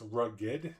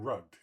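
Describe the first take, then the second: First: The word is said with two syllables. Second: The word is said with one syllable. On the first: The name means rough around the edges. The speaker calls it right. "rough around the edges" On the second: It means having lost money in a scam. The speaker calls it wrong. "as in losing money or being rugged"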